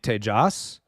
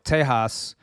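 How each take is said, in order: First: The J is sounded as J. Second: The J is not sounded as J. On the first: It follows the name owner's own pronunciation. "you guys actually say your J's or pronounce your J's" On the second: It follows Spanish pronunciation. "the J is silent in Spanish language. So Tejas to me would be how you'd pronounce that from uh, the Spanish language"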